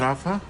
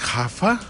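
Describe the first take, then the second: First: The name is said the English way. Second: The name is said the Portuguese way. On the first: The speaker calls it wrong. "not Rafa?" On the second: The speaker calls it right. "it's Hafa?"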